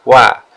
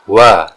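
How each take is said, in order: First: The w is light and thin. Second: The w is heavy, pushed from the chest. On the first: The speaker calls it right. "tapi adanya wa" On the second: The speaker calls it wrong. "jarang mendengar kata wa"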